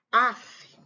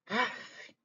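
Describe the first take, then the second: First: Weary huff of "Af"; annoyed sigh af. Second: Soft tired sigh of "af"; weary af. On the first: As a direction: puff out "Af" in boredom. ("Af" com bufada de tédio) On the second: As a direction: breathe out "af" softly, fed up. ("af" suspirado e cansado) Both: Shown as a demonstration. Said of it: "quando você fala assim".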